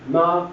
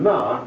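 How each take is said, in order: First: It is said with the first tone. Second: It is said with the fourth tone. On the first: It means mother. "Ma is first tone" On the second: It is a bit of a swear word. "ma is a bit of a swear word"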